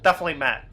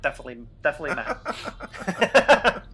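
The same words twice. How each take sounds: First: Said in the usual way. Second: Giggling through "definitely, definitely Matt"; laughing. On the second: Pretend. Giggling through the repeated joke.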